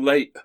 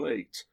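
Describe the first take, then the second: First: The final t is replaced by a glottal stop. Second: The final t is fully pronounced. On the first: The speaker calls it wrong. "Putting a glottal stop into the word late is harder than not doing so" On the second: The speaker calls it right. "That doesn't flow any more quickly than late"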